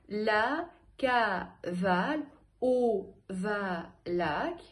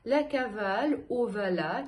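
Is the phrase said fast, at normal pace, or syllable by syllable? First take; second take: syllable by syllable; normal pace. First: It is said slowly, separating each syllable. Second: It is said at an ordinary, even speaking pace. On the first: "По слогам" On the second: "Теперь еще раз я произношу нормально"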